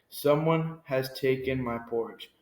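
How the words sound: It is said in a big, deep voice.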